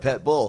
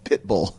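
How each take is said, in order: First: The first word has an 'e' vowel. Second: The first word has a short 'i' vowel. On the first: The speaker calls it wrong. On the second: The speaker calls it right.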